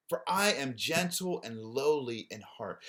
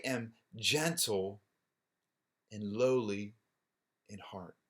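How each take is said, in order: First: Said in the usual way. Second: Slow, drawn out, softer and lower at the end; lingering on "gentle" and "lowly", fading out on "in heart"; tender slow reading of "for I am gentle and lowly in heart". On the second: Shown as a demonstration.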